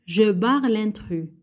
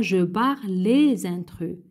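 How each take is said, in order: First: Said in the usual way. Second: LES picked out, linked with a z to intrus; stress on LES. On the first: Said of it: "L'intrus واحد". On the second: Shown as a demonstration. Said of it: "ولا كان أكثر من واحد يقولوا لنا". (accent sur LES, avec liaison en z)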